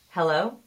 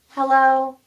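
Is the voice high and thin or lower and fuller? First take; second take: lower; high. First: It is said lower, on the out breath. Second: It is said in a high, thin voice.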